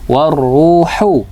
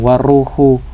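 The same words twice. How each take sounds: First: The h sound is clear and distinct. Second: The h sound is weak and unclear. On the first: The speaker calls it right. "hu-nya harus bersih" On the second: The speaker calls it wrong. "jangan waruhu"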